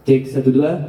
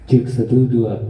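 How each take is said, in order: First: The voice has very little bass. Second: The voice has noticeably more bass. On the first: "malah tambah kecil ya bassnya ya" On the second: "lebih ada sedikit bassnya ya"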